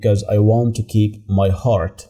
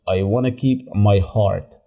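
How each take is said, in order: First: It is said carefully, with full want to. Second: It is said fast, with reduced wanna.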